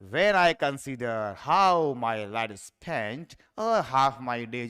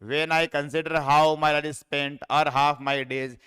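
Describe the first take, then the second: First: It is read dramatically, with musical rhythm. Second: It is read flatly, without rhythm or melody. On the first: The poem is recited for the pleasure of it. The speaker calls it right. "ऐसे नाटक से पढ़ी जाती है poem" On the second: The poem is read only to grasp its meaning. The speaker calls it wrong. "मैंने कोई लय ताल म्यूजिक कोई ध्यान नहीं दिया है"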